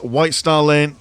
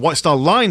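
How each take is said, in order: First: The last word has an 'ay' vowel, like lane. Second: The last word has an 'eye' vowel, like line. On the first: The speaker calls it wrong. "been mispronouncing that this entire game" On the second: The speaker calls it right.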